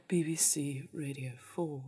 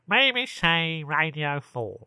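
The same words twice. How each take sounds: First: Low, soft Radio four male voice; imitation male continuity announcer. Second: Slow, drawn-out put-on announcer; hammed-up male Radio four voice; mock male radio announcer. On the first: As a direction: drop low and hushed like a BBC man. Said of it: "do the male version". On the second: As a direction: stretch every word as a silly BBC man. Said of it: "They don't do that". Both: Shown as a demonstration.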